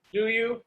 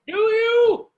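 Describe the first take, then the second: First: Said in the usual way. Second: Much higher and louder, shouted; sudden shout. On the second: Acted. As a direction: blast the repeat at her. Challenging her, then repeating louder.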